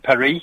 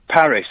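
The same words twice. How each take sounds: First: "Paris" with a silent S; French pronunciation. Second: "Paris" with the final S sounded; English pronunciation. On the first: Caller quoting what the French call it, "Paris" without the S. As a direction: say "Paris" as pa-REE. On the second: Caller naming the city in France, "Paris" with English S. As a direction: say "Paris" the English way, PARR-iss. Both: Shown as a demonstration. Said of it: "I don't need to pronounce the S".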